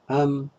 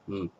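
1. Слово сохраняет короткий редуцированный гласный. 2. Слово — это только звук m. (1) "Более длинная am" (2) "и короткая m"

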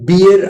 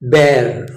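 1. ಸ್ವರ 'beer' ನಲ್ಲಿರುವ ಹಾಗೆ ಇದೆ. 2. ಸ್ವರ 'bare' ನಲ್ಲಿರುವ ಹಾಗೆ ಇದೆ. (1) "ಇದು ಬಿಯರ್ ಆಗಲ್ಲ" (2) "ಬೇರ್ ಬೇರ್"

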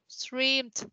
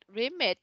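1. Phần cuối là âm d đơn giản, một âm tiết. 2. Phần cuối thêm một âm tiết "id". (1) "Streamed, not remit nha" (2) "not remit nha"

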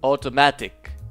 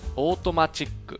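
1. 最後のkの前の音節は「ti」です。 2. 最後のkの前の音節は「chi」です。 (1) "後半での英語の発音の際" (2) "前半で日本語訳の説明としてカタカナ語を導入します"

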